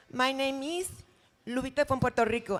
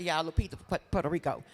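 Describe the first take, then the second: First: Put-on Lupita from Puerto Rico in a light Puerto Rican accent, Rico as REE-ko. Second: Said in the usual way. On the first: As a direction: introduce yourself as Lupita with a Spanish lilt. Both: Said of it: "that's my other character".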